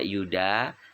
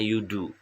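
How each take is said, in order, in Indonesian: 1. Nama itu berakhir dengan vokal 'a'. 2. Nama itu berakhir dengan vokal 'u'. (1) "tetapi dibaca yuda" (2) "harusnya yudu"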